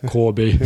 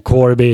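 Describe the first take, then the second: First: Lazy Corby accent, "Corby" with sounds dropped; horrible Corby accent. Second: "Corby" loud, with the r sounded; full pronunciation. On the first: Guest mocking his hometown's speech, horrible Corby accent. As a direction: say "Corby" lazily, like a local. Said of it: "Horrible accent". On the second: Guest showing the word before his lazy accent, full pronunciation. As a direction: say "Corby" carefully with every sound in it. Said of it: "it's like Corby". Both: Shown as a demonstration.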